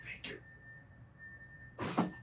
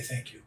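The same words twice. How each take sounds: First: A soft, breathy thank you; whispered thanks. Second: Said in the usual way. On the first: Shown as a demonstration. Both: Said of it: "I say".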